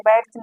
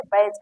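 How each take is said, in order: First: बैज with the d sounded, as "baidge"; बैज pronounced letter by letter with d; wrong pronunciation. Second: बैज with a silent d, as "baij"; बैज pronounced without d; correct pronunciation. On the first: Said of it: "बैज नहीं कहते". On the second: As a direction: say बैज dropping the d. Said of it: "इसे बैज कहते हैं". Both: Shown as a demonstration.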